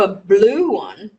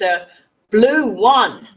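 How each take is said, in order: First: The stress falls on the word blue. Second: The stress falls on the final word one. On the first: The colour is being contrasted. "it's not no a blue one" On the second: The colour contrast is lost. "The stress is on the one"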